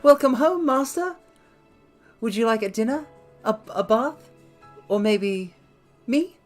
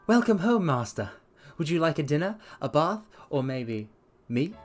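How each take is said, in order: First: It is read with a strong character voice. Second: It is read with a weak character voice. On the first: The speaker calls it right. "That's more of a voice that goes with that" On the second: The speaker calls it wrong. "I didn't do that in a good enough voice"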